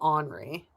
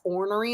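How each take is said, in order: First: It sounds like 'onry', close to Henri. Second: It is said fully as 'or-ner-y'. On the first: This is how people in the local area say it. "the word ornery in the area is called Henri" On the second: This is the standard form of the word. "It's ornery"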